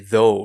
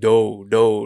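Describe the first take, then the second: First: The word begins with a soft th sound. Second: The word begins with a hard d sound. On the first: The speaker calls it right. "I couldn't say though" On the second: The speaker calls it wrong. "I was just saying do"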